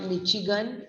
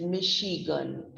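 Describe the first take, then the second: First: "Michigan" with CH as in chop; mispronounced Michigan. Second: "Michigan" with SH as in shop; correct Michigan. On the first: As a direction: say "Michigan" wrongly as MI-chi-gan. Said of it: "It's not Michigan". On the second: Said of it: "here we are calling it as". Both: Shown as a demonstration.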